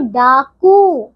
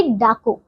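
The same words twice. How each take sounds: First: डाकू with a long drawn-out oo; long final vowel. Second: डाकू with a short final u; short final vowel. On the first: Teacher correcting pupils' spelling, डाकू with long oo. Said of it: "क में बड़े ऊ की मात्रा". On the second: Teacher showing pupils the misspelling, डाकू with short u. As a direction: end डाकू on a quick, short u. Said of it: "छोटी ऊ की मात्रा". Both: Shown as a demonstration.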